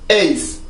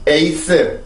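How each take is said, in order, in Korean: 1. 한 음절로 발음합니다. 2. 세 음절로 나눠서 발음합니다. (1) "영어입니다" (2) "한국어입니다"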